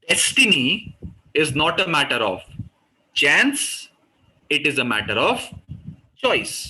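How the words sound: Destiny, chance and choice are said with strong emphasis.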